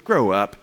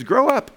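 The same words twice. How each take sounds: First: Low, blunt mock rebuke. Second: High-pitched mock call to mature; exhorting. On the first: Preacher mimicking a tactless word to a brother, blunt rebuke. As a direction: drop it low and curt, no tenderness. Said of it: "we don't just go up to a brother and say". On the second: Paul urging the Corinthians to mature, high exhortation. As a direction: push it out high, like a rebuke. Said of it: "Paul's saying into the Corinthians".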